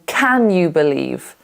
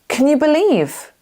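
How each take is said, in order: First: The word 'can' has a full, clear vowel. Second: The word 'can' has a weak, reduced vowel. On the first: "Rather than" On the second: "in connected speech, it often becomes can"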